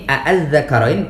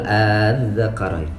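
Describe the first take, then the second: First: The opening vowel is short and separate. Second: The opening vowel is merged and held long. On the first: "Cara baca yang ini" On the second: "masuk mad farq di, dibedakan"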